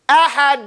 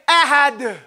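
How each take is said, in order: First: The final consonant bounces but the air is held. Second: The final consonant bursts out too far. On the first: The speaker calls it right. "I hold it here. I hold my air" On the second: The speaker calls it wrong. "That's not no restraint, no something. You went too far"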